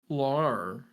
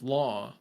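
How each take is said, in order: First: The word ends with an R sound. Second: The word ends on a plain open vowel. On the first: The speaker calls it wrong. "You're you're saying like lar" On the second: The speaker calls it right. "instead of law"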